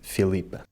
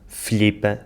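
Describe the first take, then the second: First: The L keeps its usual sound. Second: The I is cut and the L altered. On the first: "em vez de" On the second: "cortarem o I, ainda voltam a alterar o som do L"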